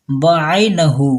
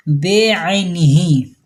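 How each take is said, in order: First: Slow बअैनहू ending in hu; wrong pronunciation. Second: Slow, careful बेअैनिही with i vowels; correct pronunciation. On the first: Teacher slowly showing the wrong form बअैनहू. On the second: Teacher carefully giving the correct form, slow बेअैनिही. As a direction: say बेअैनिही slowly, be-ai-ni-hi. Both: Shown as a demonstration. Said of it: "ये गलत है".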